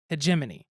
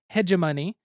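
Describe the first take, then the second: First: The stress falls on the second syllable. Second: The stress falls off the second syllable. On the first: The speaker calls it right. "the accent is on the jet" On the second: The speaker calls it wrong. "not hegemony"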